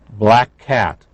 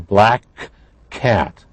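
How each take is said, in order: First: The two k sounds blend into one sound. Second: The two k sounds are said separately. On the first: The speaker calls it right. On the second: The speaker calls it wrong.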